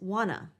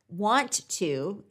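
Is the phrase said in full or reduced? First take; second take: reduced; full. First: The words are shortened and merged into one. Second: Both words are said fully and separately. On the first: "often heard as wanna" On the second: "Want to is often heard as wanna"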